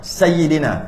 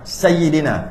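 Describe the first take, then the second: First: The middle y sound is doubled and held. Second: The middle y sound is doubled and held.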